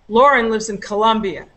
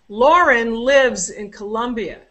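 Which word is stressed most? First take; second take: Colombia; lives. First: Lauren and Colombia are stressed. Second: The word lives is stressed.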